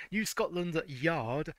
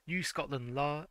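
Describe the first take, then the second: First: New Scotland Yard said slowly, Yard fully and clearly; slow, deliberate reread of New Scotland Yard; careful correction. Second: New Scotland La- cut off mid-word on a wrong La sound; misread name. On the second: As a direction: stumble into La- and stop. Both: Shown as a demonstration. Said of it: "that was a misspelling and a half".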